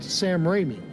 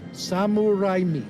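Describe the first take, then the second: First: The name is said with an English accent. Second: The name is said with a Japanese-style accent. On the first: "you would not pronounce it Sam Raimi" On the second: "if you were Japanese, you would pronounce the name Samuraimi"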